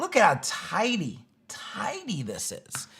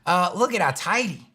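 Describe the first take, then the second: First: Hushed, slow, awed whisper; whispering in reverence over a tidy site. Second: Said in the usual way. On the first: Acted. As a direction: breathe it like a secret treasure. Admiring the tidy pages area.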